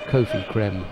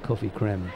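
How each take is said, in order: First: The first vowel is long, as in go. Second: The first vowel is short, as in cough. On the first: The speaker calls it right. "we'll call him" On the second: The speaker calls it wrong. "it's more of a cough sound"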